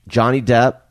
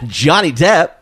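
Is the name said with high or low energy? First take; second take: low; high. First: The name is said with ordinary, low energy. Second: The name is said with much more energy.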